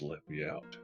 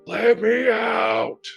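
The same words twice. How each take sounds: First: It is said fairly quietly. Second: It is screamed loudly.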